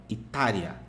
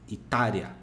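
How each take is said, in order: Both takes have the same delivery.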